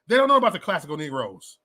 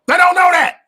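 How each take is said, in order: First: Said in the usual way. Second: High-pitched, loud outburst; sudden loud exclamation; emphatic shout. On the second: Real, not acted. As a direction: shout it out much higher. Exclaims about the new generation.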